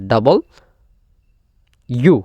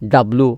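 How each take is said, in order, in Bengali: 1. নামটি দুটো স্পষ্ট ভাগে বলা হয়। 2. নামটি একটি ছোট শব্দে জুড়ে বলা হয়।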